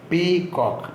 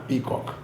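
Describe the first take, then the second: First: peacock broken as പീ, pause, coke; split into syllables. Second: Said in the usual way. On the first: Shown as a demonstration. Teacher showing pupils two syllables, split apart. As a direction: say പീ and coke as two separate beats. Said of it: "പി എന്നും coke എന്നും രണ്ട് syllable". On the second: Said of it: "peacock എന്ന് ഒന്നിച്ച് പറയാം".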